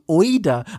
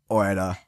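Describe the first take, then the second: First: Each sound is stressed and clearly articulated. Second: The sounds are relaxed and run together casually. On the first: This imitates how a non-native speaker says it. "so betont auf die Buchstaben" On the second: This is how native speakers simply say it. "Aber es ist einfach nur so Oida"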